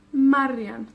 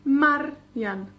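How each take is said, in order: First: Marian joined up, MAR louder; stress on first syllable. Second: Marian in two parts, MAR hit hard; stress on first syllable. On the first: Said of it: "el énfasis cae en la penúltima". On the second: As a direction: break Marian up as MAR, ian. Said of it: "pero en la penúltima". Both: Shown as a demonstration.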